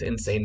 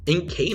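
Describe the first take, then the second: First: The C is said as an S sound. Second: The C is said as a K sound.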